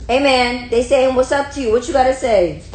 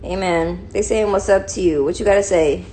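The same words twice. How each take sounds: First: Loud, high-pitched demand to a pet; excited high talk to a dog; high puppy voice. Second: Said in the usual way. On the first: Pretend. Repeats higher, louder to dog.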